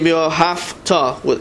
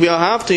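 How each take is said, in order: First: The middle consonant is a voiceless f sound. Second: The middle consonant is a voiced v sound. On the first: The speaker calls it wrong. "as though there's a fey in there" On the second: The speaker calls it right. "instead of saying v'yahavta"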